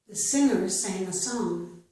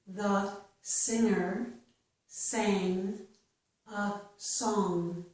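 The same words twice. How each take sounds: First: The sentence is spoken faster. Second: The sentence is spoken slowly. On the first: "then I will read it a little bit faster" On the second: "I will read each sentence slowly"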